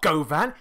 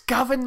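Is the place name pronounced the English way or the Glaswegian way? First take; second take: English; Glaswegian. First: The name is pronounced in an outsider's English way. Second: The name is pronounced in the local Glaswegian way. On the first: The speaker calls it wrong. "it's not govan" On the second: The speaker calls it right. "it's govern, mate"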